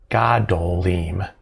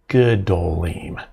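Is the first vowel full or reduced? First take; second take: full; reduced. First: The first syllable has a full a vowel. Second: The first syllable is shortened to a schwa. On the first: The speaker calls it wrong. "instead of gadolim" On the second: The speaker calls it right. "it'll be gadolim"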